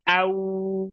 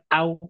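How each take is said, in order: First: The sound is soft and drawn out. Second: The sound is short and clipped. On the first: The speaker calls it right. "yang pertama dia lembut, yang kedua dipanjangin" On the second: The speaker calls it wrong. "Bukan cuman au"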